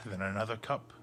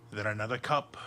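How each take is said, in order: Both takes have the same delivery.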